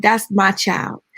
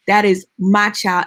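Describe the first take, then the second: First: Put-on slow, gentle "That's my child"; tender claim. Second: Firm, insistent repeat of the claim; emphatic repeat. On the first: Neighbor tells the mother, slow and tender. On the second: Retold or imitated. Neighbor insists to the mother, firm and emphatic. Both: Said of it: "She said".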